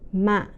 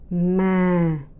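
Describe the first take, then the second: First: The pitch drops abruptly and cuts off heavily. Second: The pitch starts low and falls gently. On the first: "the heavy and mid falling tone" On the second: "the deep, the low falling tones"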